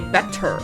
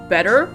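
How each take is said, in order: First: It is said in a British accent. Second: It is said in a non-British accent. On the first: "you say better" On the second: "instead of saying better"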